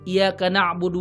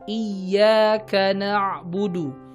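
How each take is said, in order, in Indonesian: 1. Bunyi y-nya pendek dan tunggal. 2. Bunyi y-nya ditahan dan dobel. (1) "itu menghilangkan tasydid di huruf iya-nya" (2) "Pastikan iya-nya bertasydid"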